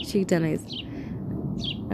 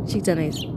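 First: Whispered repeat; softly whispered; whispering. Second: Said in the usual way. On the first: Real, not acted.

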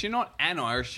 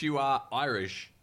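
First: "an" punched higher as the wrong word; stress on AN. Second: Slow "are Irish", with no "an"; corrected phrasing. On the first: Co-host correcting her grammar, stress on "an". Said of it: "did you say I'm an Irish". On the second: Co-host correcting her grammar, slow stress on "are Irish". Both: Shown as a demonstration.

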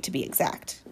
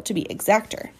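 First: Soft, breathy throwaway correction; quiet aside. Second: Said in the usual way. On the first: A narrator's reading. Narrator tossing in a hushed precise aside. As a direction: drop it to a near-whispered aside.

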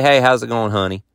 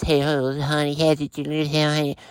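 First: Said in the usual way. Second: Soft, gushing voice for a fluffy dog; cutesy pet talk. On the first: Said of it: "they can't just say". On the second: Shown as a demonstration. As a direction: coo it like the owners do. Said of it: "No, it's".

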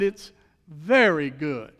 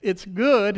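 First: VERY drawn out and leaned on; slow down and weight the word very; "very" stretched long and emphatic, then falling; stress on very. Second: Said in the usual way. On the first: Retold or imitated. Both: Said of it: "he didn't just say".

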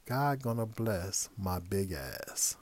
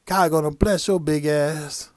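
First: Quiet, very slow repeat of "God gonna bless my big ass"; stunned repeat. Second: Loud, slow, drawn-out blessing with a grin; panhandler's blessing. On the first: Real, not acted. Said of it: "The compliment, ... The diss". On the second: Retold or imitated. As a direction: bellow the compliment diss proudly. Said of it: "You know what this motherfucker said?".

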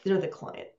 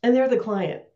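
First: Muttered under the breath in frustration; exasperated aside, nearly voiceless; exasperated undertone. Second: Said in the usual way. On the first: Real, not acted. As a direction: sigh out they're the client, resigned.

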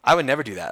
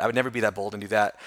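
First: "I" pushed louder, falling off after; stress on I. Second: "never" leaned on, rest at usual level; stress on never. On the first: Guest to host, hitting "I" in "I would never do that". Stress contrast with next line. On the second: Guest to host, weight on "never" in "never be that bold". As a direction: press "never" in "I would never be that bold". Stress contrast with previous line. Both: Real, not acted.

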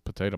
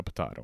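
First: "Potato" as puh-TAY-toh; Potato with a long A as in day; long-A pronunciation. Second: "potato" as puh-TAH-toh; potato with an open A as in father; broad-A pronunciation. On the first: Motto repeated, first pronunciation. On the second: Motto repeated, second pronunciation. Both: Shown as a demonstration.

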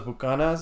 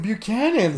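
First: Bucanas said boo-KAH-nahs; Spanish-style pronunciation. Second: Buchanan's pitched up, said byoo-KAN-unz; English pronunciation. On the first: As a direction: give Bucanas open Spanish vowels. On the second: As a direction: hit Buchanan's high as an English surname. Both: Shown as a demonstration. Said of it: "never heard it pronounced in English".

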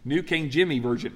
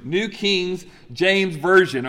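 First: Said in the usual way. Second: Slow, deliberate "New King James Version"; careful correction. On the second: Real, not acted. Preacher fixing his slip on "New King James Version", slow and deliberate.

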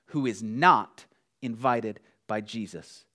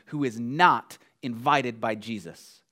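No difference in how they are said.

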